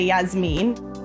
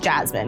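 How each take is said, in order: First: The name is said with a Spanish pronunciation. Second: The name is said with an American pronunciation. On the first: This is the family's original way of saying the name. "We don't say Yasmin" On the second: This is how the name is said in America. "in America, your name is pronounced Jasmine"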